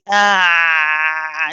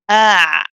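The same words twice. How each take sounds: First: The sound is held on for long. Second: The sound is held for a medium length. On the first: The speaker calls it wrong. "We don't keep it running and say ah and stay on it" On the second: The speaker calls it right. "It's not too long, not too short kind of a letter"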